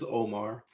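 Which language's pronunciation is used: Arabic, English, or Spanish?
English. The name is said with an English pronunciation. "In English is"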